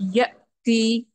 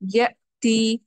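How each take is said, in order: Both takes have the same delivery.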